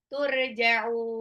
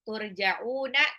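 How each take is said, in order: First: The word stops short without the final vowel. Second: The word ends with a full final '-na' syllable. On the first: The reciter pauses at the end of the verse. The speaker calls it right. "tapi turja'u" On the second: The reciter does not stop on this word. The speaker calls it wrong. "bukan turja'una"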